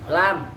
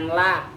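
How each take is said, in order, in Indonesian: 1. Kata ini berakhir dengan konsonan. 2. Kata ini berakhir dengan vokal. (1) "Lam, bukan la" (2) "bukan la"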